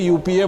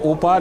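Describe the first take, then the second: First: It is spelled out letter by letter. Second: It is read as a single word. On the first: This is how everyone actually said it. "आप भी यूपीए बोलते थे" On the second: Nobody used to say it this way. "उपा नहीं बोलते थे"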